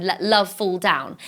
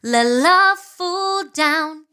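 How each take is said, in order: First: "Let love fall down" slid smoothly, holding the notes; slinky line. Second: "Let love fall down" drawn out slowly, notes held; slinky and slow. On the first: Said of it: "it's a little bit like ... snake". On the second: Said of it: "when you see a snake going like this". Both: Shown as a demonstration.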